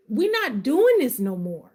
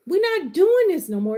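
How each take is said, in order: First: Said in the usual way. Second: Higher and louder, preaching declaration; on my pedestal. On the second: Real, not acted. Coach vowing to her community, preaching louder and higher. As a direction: declare it like a vow from the pulpit. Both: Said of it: "Let me get off my pedestal".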